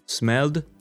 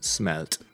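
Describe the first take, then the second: First: The word ends with a d sound. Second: The word ends with a t sound. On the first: "in the first case, you write it with ed ... here you pronounce d or t" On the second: "in the second with t ... here you pronounce d or t"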